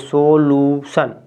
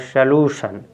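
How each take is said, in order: First: The first syllable has a full 'o' vowel. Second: The first syllable has a short reduced vowel. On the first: The speaker calls it wrong. "सो पढ़ना चाहिए, लेकिन सोलूशन नहीं होता है" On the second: The speaker calls it right. "इसको पढ़ेंगे श लू"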